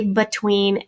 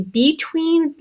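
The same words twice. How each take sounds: First: "between" as buh-TWEEN; "between" with a short, unstressed first syllable; schwa pronunciation. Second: "between" as BEE-TWEEN, drawn out; "between" slowly, with long E in both syllables; long-E pronunciation. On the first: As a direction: reduce the first vowel of "between" to uh. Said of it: "and it's a schwa sound". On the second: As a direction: give "between" a full ee in the first syllable. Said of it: "long E sound in that open syllable". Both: Shown as a demonstration.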